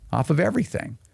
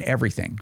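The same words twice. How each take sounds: First: Everything lifted and leaned on, then falling; stress on everything. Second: Said in the usual way. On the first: Shown as a demonstration. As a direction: hit everything a little higher.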